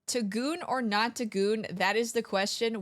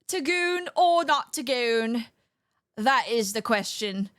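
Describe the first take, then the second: First: It is said in the speaker's normal voice. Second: It is said in a put-on theatrical accent.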